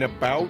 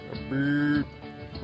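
First: The vowel in the word sounds plain. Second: The vowel in the word sounds like mooing. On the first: The speaker calls it wrong. "instead of saying about" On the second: The speaker calls it right. "Kind of like you're mooing"

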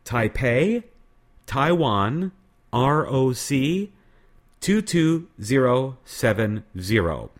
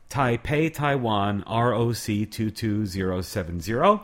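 First: It is said more slowly. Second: It is said at a normal, faster pace.

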